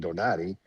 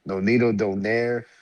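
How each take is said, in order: First: The surname is said in a native-sounding way. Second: The surname is said in a common anglicized way.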